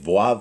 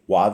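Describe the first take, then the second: First: The letter name begins with a V sound. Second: The letter name begins with a W sound.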